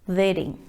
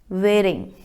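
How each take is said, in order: Both takes have the same delivery.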